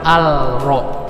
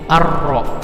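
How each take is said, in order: First: The L is clearly heard before the R. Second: The L merges into a doubled R sound. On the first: The speaker calls it wrong. "bukan al-ro" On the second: The speaker calls it right. "ini dibacanya ar-ro"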